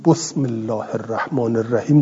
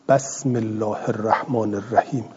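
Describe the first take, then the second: First: بسم said "bosm", with a short o after the ب; damma on the ب. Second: بسم said "basm", with a short a after the ب; fatha on the ب. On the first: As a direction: round the first vowel of بسم to "bo". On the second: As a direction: open the first vowel of بسم to "ba". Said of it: "لو فتحوا او زمو". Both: Shown as a demonstration.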